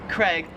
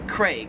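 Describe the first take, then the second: First: The vowel sounds like a short e. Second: The vowel is a long, emphasized a. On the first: "the way I say just have been saying it, Craig, is wrong" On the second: "In Australia, they pronounce it Craig. They really emphasize that A"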